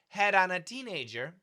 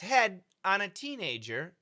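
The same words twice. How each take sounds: First: The D is a quick flap linked into 'on'. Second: The D stops before a fresh start on 'on'. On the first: "we can actually link the sound... It's a very fast D" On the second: "if we stop the D in head"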